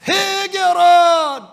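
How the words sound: It is proclaimed loudly and earnestly as one phrase. The message is proclaimed with conviction. "이렇게 외친 게 아니에요"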